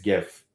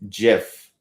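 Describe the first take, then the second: First: The word starts with a hard G sound. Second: The word starts with a J sound. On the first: "I'll know with a G" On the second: "spell it out J I F"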